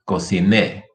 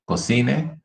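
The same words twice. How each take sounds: First: Cociné with a firm NÉ; stress on last syllable. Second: Cocine with CI stressed, rising; stress on middle syllable. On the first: Teacher repeating the drill, final stress on cociné. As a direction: put the weight at the end of cociné. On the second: Teacher repeating the drill, middle stress on cocine. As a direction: raise the pitch through CI of cocine. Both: Shown as a demonstration. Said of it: "here's another one".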